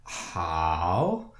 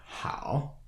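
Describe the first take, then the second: First: Drawn-out "hao" that swoops up like a trampoline; exaggerated dip and rise on "hao"; dipping, rising tone. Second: "hao" on a deep, low tone; low "hao", like a grudging grumble; low third tone. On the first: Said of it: "it dips and then rises like a trampoline". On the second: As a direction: keep "hao" low and growled in the throat. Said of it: "the third tone sounds like". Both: Shown as a demonstration.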